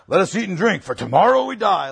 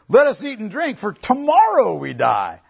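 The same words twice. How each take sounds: First: It is said in a resigned, despairing tone. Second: It is said in a defiant, reveling tone. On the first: They expect to die and are giving up. The speaker calls it wrong. "not the cry of resignation" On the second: They are celebrating in defiance of a warning. The speaker calls it right. "The reason I'm reading it that way is this"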